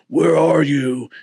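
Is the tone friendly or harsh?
harsh. It is said in a harsh, accusing tone. The caller is angry at those hiding. The speaker calls it wrong. "I don't imagine God was like"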